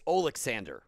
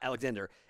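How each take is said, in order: First: The name is said the Ukrainian way, Oleksandr. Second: The name is said the English way, Alexander. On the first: The speaker calls it right. "That's how you say his name" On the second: The speaker calls it wrong. "It's not Alexander"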